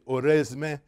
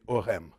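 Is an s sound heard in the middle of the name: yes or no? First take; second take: yes; no. First: An s sound is heard before the m. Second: No s sound is heard before the m. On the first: The speaker calls it wrong. "you don't say Oresme" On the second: The speaker calls it right. "you say Orem"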